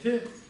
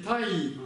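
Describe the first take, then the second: First: The word ends in a single vowel sound. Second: The word ends in two separate vowel sounds. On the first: The speaker calls it right. "когда у нас было слово «те»" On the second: The speaker calls it wrong. "не «таи», как читают очень часто монголы"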